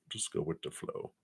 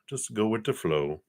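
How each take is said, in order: First: Breathy whispered repeat of the phrase. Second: Said in the usual way. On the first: Shown as a demonstration. Reader repeating advice to viewer, whispered. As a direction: whisper it like a secret tip.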